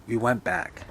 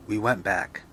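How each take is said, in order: Both takes have the same delivery.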